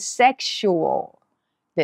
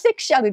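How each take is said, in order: First: The ending is 'shoo-ul' with a dark l. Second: The ending is a short 'shal' sound. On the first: The speaker calls it right. "セクシュアルです" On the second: The speaker calls it wrong. "英語はセクシャルではなくて"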